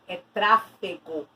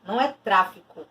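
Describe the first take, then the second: First: Tráfego said slowly and pointedly; correct word stressed. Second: Said in the usual way. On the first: Shown as a demonstration. Teacher correcting a student's word choice, pointed and slow.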